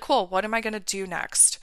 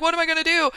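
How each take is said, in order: First: Softer, steady, unbothered self-talk; acted calm. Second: High-pitched mock fretting; acted freak-out. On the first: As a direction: play someone calmly grounded. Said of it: "you're gonna feel steady". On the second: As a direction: act out someone freaking out. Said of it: "freaking out constantly and being like".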